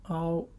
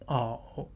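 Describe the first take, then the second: First: The tone stays high and level. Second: The tone dips low, then rises.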